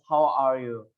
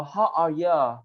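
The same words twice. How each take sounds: First: Said in the usual way. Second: "how are you?" with "you" said as a quick "ya". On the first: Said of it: "is the same as". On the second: Shown as a demonstration. Teacher showing students the Australian slang form, "you" said as "ya". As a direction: clip "you" down to "ya", Australian style. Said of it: "Australian greetings often use "ya" instead of "you".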